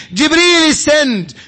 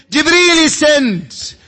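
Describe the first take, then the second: No difference in how they are said.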